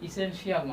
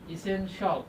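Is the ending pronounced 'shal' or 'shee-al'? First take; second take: shee-al; shal. First: The ending is said as 'shee-al'. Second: The ending is said as 'shal'. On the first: The speaker calls it wrong. "ইসেনশিয়াল না" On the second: The speaker calls it right. "এটার উচ্চারণ কি হবে"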